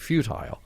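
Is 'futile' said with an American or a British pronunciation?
British. Futile is said with a British pronunciation. "the Borg now are just sort of standardized on saying futile"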